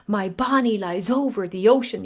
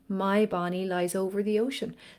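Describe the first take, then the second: First: It is pushed forward and overemphasized. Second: It is said dreamily, as if to oneself.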